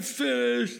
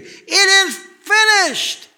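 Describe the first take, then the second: First: It is said weakly, like a defeated whimper. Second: It is shouted loudly and triumphantly. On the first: It is a sad, tragic ending. The speaker calls it wrong. "not a whimpering little defeat" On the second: The work is done and it is a victory. The speaker calls it right. "a loud shout of victory"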